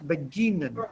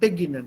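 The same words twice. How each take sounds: First: The stress is on the middle syllable. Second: The stress is on the first syllable. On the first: The speaker calls it right. "The stress will be here in the middle" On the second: The speaker calls it wrong. "not beginnen"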